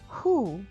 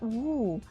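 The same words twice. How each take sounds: First: It begins with a breathy H sound. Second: It begins with a W sound. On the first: The speaker calls it right. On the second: The speaker calls it wrong.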